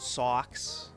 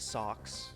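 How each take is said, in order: First: The vowel has a broad Boston accent. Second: The vowel has a neutral, unaccented sound. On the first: The speaker is genuinely angry. "I start saying socks" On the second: The speaker is calm. "instead of socks"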